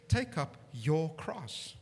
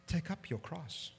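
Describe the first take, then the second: First: "Take" weighted heavily, slow and falling; slow stress on take. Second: "Take up your cross" said quieter and falling; hushed "Take up your cross"; softer quote. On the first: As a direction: Take stressed and drawn out slowly. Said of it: "he says". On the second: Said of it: "He's saying". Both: Shown as a demonstration.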